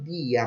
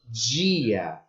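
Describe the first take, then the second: First: The d is plain, not palatalized. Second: The d is palatalized, like a j sound. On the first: The speaker calls it wrong. "eu não produzo dia" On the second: The speaker calls it right. "mas dia"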